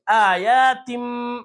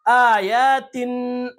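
First: Very slow chanted آیاتم ending on a hummed m; tanween changed to meem. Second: Very slow chanted آیاتن ending on n; tanween sounded as n. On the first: Teacher reading with the next letter, meem in آیاتم. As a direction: close the lips and hold the m of آیاتم. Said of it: "میم سے بدل کر پڑھیں گے". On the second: Teacher reading before the next letter, n kept in آیاتن. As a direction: stretch the vowels of آیاتن, finish on n. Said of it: "تنوین ہی کی آواز نکلے گی". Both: Shown as a demonstration.

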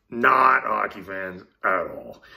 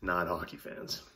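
First: "Not hockey fans at all" louder and slow, punching "Not"; emphatic repeat. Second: Said in the usual way. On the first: Real, not acted. Telling viewers he is no hockey fan, with slow, loud stress on "Not". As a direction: hit "Not" hard and slow the whole phrase down.

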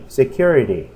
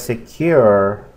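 First: SECURITY said as one joined word; whole-word pronunciation. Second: SECURITY stretched in parts, "se-kyur... ity"; broken-down pronunciation. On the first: Teacher gives word to practise, whole-word model. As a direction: say "security" whole, without a break. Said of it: "Para que la practique". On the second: Teacher recalls last class's pronunciation, broken-down word. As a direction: break "security" slowly into its sounds. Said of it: "si recordamos la pronunciación también". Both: Shown as a demonstration.

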